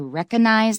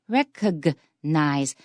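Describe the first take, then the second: First: The G sound in the middle is dropped. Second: The G sound in the middle is clearly pronounced. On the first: The speaker calls it wrong. "don't say recognize" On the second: The speaker calls it right. "There's a G, it should be pronounced"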